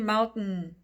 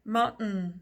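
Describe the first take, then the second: No difference in how they are said.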